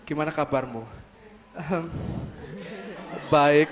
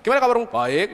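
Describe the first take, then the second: First: A long pause comes before the answer. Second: The answer follows the question with no pause. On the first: The two are a couple who truly listen. "Ada jedanya" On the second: The two are only ordinary friends. "just friend"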